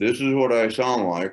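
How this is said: The voice resonates lightly in the mouth. "when I speak from my mouth"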